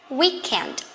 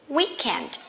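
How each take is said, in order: Both takes have the same delivery.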